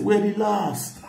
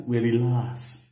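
First: High, loud shouted "relax". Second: Slow, easy soothing; calm. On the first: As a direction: shout "relax" over the noise. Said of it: "He dey shout". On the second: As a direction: drawl "relax" slowly to settle her down. Calming down the excited wife. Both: Retold or imitated.

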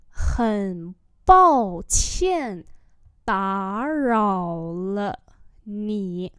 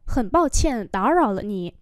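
First: Broken into slow separate syllables; slow teaching repeat. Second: Said in the usual way. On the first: Shown as a demonstration. Teacher slowly models the phrase for students, drawn out. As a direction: stretch every syllable for beginners. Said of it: "slow repeat". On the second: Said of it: "normal model".

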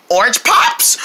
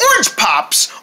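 First: "Pops?" rising at the end like a question; questioning rise. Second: Said in the usual way. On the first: Acted. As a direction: ask "Orange Pops?" with a lifted "Pops".

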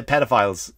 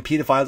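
First: "pedophiles" with short e, PED-uh-files; American-style pronunciation. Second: "pedophiles" as PEE-duh-files; Irish pronunciation. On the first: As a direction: say "pedophiles" starting like the word "ped". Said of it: "I'll say pedophiles". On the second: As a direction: say "pedophiles" with a long ee up front. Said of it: "I won't annoy you by saying". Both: Shown as a demonstration.

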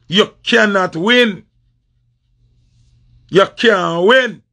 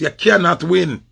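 First: Slowed right down, each word spaced; emphatic slow warning to a rival; slow, drawn-out taunt. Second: Said in the usual way. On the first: Real, not acted. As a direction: lay it out slowly so it lands as final. Repeats the taunt slowly.

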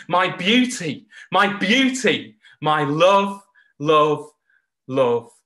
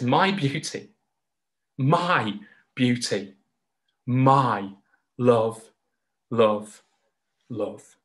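First: Delighted declaration. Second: Tender declaration. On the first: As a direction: sing out your delight over a treasured toy. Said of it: "declared in this voice". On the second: God speaking to his people, slow and tender. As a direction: speak it gently like holding someone close. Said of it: "he says". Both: Retold or imitated.

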